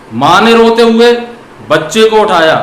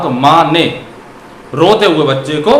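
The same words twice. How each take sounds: First: "माँ ने रोते हुए", pause, then "बच्चे को उठाया", so the mother is the one crying; group "रोते हुए" with "माँ ने", stressed and louder; phrase it so mother is crying; pause after रोते हुए. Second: "माँ ने", pause, then "रोते हुए बच्चे को" as one phrase; group "रोते हुए" with "बच्चे को" after a break; phrase it so the child is crying. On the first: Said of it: "तब तो माँ रो रही है". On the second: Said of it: "रोते हुए बच्चे का क्या हो गया". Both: Shown as a demonstration.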